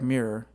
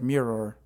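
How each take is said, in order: First: The word is said in a relaxed everyday way. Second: Both syllables are pronounced carefully and distinctly. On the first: "But I say like mirror" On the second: "overpronounce like mirror"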